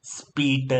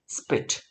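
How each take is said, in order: First: સ્પીટ stretched into "speee-da"; long vowel and voiced vowel ending on સ્પીટ; wrong drawn-out reading. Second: સ્પીટ as quick "spit", short vowel; short crisp reading. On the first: Teacher showing what not to read, સ્પીટ dragged as "speeda". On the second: Teacher modelling for pupils, સ્પીટ short with a bare t. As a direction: end સ્પીટ on a voiceless t, no vowel after. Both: Shown as a demonstration. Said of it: "નહીં વાંચીએ".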